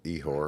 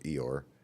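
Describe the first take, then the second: First: The name is said as Ihor, not Eeyore. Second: The name sounds like the cartoon donkey Eeyore. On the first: "you go with Ehor" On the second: "I'll go with Eeyore"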